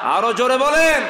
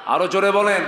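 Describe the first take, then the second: First: Very loud, high-pitched rallying shout; urging full shout. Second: Loud, raised call to the crowd; urging louder. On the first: Preacher demanding a still louder answer, escalating shout. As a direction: bellow it to rouse the whole crowd. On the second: Preacher asking the congregation to answer louder, urging call. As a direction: push them to speak up. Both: Real, not acted.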